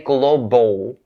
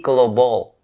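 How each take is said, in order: First: The O vowel has strongly pushed-out lips. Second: The O vowel has relaxed, less rounded lips. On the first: The speaker calls it wrong. "Please don't stick your lips out too much in order to enunciate the O sound" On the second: The speaker calls it right. "It has to be global"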